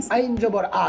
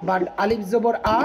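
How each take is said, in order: First: আইন জবর আ with the আ squeezed from the middle of the throat; throaty ain. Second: আলিফ জবর আ with the আ said hard and firm, slowly; firm alif. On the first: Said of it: "আইনটা গলার মধ্যখান থেকে". (আইন জবর আ গলার মধ্যখান থেকে) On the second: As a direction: say আলিফ জবর আ crisply from the front. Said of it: "আলিফটা শক্ত করে পড়তে হবে". (আলিফ জবর আ শক্ত করে) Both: Shown as a demonstration.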